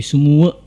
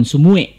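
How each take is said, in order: First: "semua" said as "sumua", ending in clear -a; correct pronunciation. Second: "sumue" with the mistaken final -e; wrong pronunciation. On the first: Teacher contrasts the right "semua" with the error. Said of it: "tapi semua". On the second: Teacher contrasts the wrong "sumue" with the right one. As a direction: say "sumue" as the learner's error. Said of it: "bukan sumue". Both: Shown as a demonstration.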